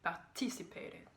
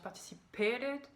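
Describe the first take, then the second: First: The stress is on the second syllable. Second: The stress is on the fourth syllable. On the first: The speaker calls it right. "on met le stress sur le T sur la deuxième syllabe" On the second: The speaker calls it wrong. "il met le stress sur la quatrième syllabe. Il prononce participated"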